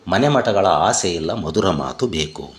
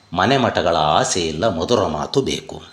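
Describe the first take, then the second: The two takes are said the same way.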